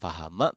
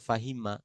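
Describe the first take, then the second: First: The second vowel is an 'a' sound. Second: The second vowel is an 'i' sound. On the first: The speaker calls it wrong. "pelafalan kita tidak tepat" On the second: The speaker calls it right. "Mereka mengungkapkannya fahima gitu"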